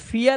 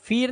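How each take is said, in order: First: The vowel glides from ee to uh. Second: The vowel is a plain long ee. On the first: The speaker calls it right. "अब ये फियर है" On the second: The speaker calls it wrong. "ये फीर नहीं है"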